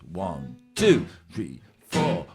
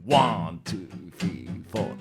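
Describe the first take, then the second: First: The stress falls on two and four. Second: The stress falls on one. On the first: "a lot of music they would emphasise the two and four" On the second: "in funk, they have a thing about staying on the one"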